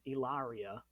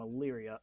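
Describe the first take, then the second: First: The name is said the way an outsider said it. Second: The name is said the way locals say it. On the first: The speaker calls it wrong. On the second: The speaker calls it right.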